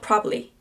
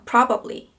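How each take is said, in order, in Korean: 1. 중간 음절을 빼서 단어를 줄입니다. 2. 모든 음절을 완전히 발음합니다. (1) "그냥 줄여서 probably. 중간에 있는 발음 빼버릴 때도 있습니다" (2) "이렇게 다 발음해줄 때도 있고"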